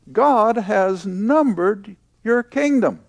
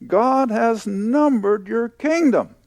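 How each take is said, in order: First: Slow, with "God" punched and the rest falling away; deliberate preacher's stress on "God". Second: Slow, with the weight landing on "kingdom"; deliberate preacher's stress on "kingdom". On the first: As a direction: hit "God" hard, then let the line drop. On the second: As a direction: lean hard on "kingdom" and let it fall. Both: Shown as a demonstration.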